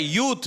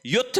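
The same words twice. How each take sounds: First: यूथ with long "oo"; correct pronunciation. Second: युथ with short u; wrong pronunciation. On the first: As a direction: stretch the vowel in यूथ. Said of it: "इसमें ऊ बड़ी आएगी". (यूथ में लंबा "ऊ") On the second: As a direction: clip the vowel in युथ. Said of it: "युथ नहीं होता है". (युथ में छोटा "उ") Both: Shown as a demonstration.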